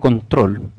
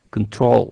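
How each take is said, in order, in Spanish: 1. Se pronuncia con acento español. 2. Se pronuncia con acento inglés. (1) "Yo digo control" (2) "en inglés se dice control"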